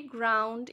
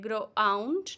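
First: Said in the usual way. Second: Ground broken as gro-ound; ground in two beats instead of one; wrongly split. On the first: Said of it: "we say ground in one go". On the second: Shown as a demonstration. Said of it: "We do not say like ground".

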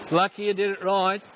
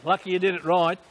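First: You lightly leaned on; teasing, with you stressed. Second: Did lightly leaned on; teasing, with did stressed. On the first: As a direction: lean on the word you. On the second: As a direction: lean on the word did. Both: Shown as a demonstration.

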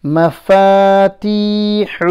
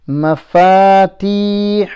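First: Said in the usual way. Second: مفاتيح with the final ح breathed out clearly; every letter clear. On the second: Shown as a demonstration. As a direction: say مفاتيح ending in a clear throaty h. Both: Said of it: "Pronounce all the letters clearly".

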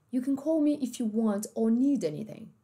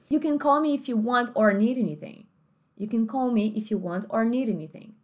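First: British host family, or said as "aw"; British accent. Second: American host family, R sounded in or; American accent. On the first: Host family talking to au pair, British accent. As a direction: say it British, dropping the R. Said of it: "uma família mais britânica". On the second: Host family talking to au pair, American accent. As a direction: say it American, with a clear R. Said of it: "host family nativa americana". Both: Shown as a demonstration.

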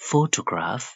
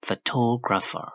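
First: PHOtograph, higher, weight up front; stress on PHO. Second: Slow, raised phoTOgrapher; stress on TO. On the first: Teacher recaps the difference, stressed PHO in Photograph. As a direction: stress the first syllable of Photograph. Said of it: "strike ကိုရှေ့ဆုံးမှာထားရတယ်". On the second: Teacher recaps the difference, stressed TO in photographer. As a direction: stress the second syllable of photographer. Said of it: "Toe ဆိုပြီးမြင့်ပေးရတယ်". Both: Shown as a demonstration.

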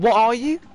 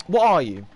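First: "what are you" higher, louder, rising at the end; incredulous rising question. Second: "What are you" with a falling tune; falling question. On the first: Gamer adding a repeat, "what are you" high and rising. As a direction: push "what are you" up into a sharp rise. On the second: Gamer questioning an enemy, "What are you" falling. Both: Real, not acted.

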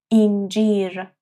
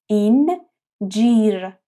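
First: Said in the usual way. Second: اینجیر stretched very slowly; slow syllable demo. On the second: Shown as a demonstration. (اینجیر آهسته و کشیده) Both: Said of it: "با دهان کشیده و باز".

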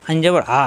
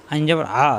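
No difference in how they are said.

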